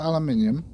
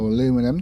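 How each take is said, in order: First: It is said the British way, five syllables. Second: It is said the American way, four syllables.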